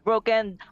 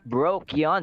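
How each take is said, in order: First: The second syllable sounds like 'ken'. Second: The second syllable sounds like 'kion'. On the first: "not broken" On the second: "and not Brokion"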